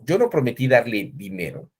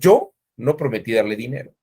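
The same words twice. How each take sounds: First: The stress is on "dinero". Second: The stress is on "yo".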